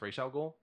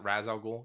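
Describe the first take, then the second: First: The first word sounds like 'Raish'. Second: The first word sounds like 'Raz'. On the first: The speaker calls it right. "It's pronounced Ra's. / Raish. / Yes" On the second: The speaker calls it wrong. "everybody that says uh, Raz Al Ghul, you're wrong"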